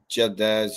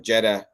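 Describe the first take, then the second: First: The name is pronounced with Arabic sounds. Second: The name is pronounced with English sounds.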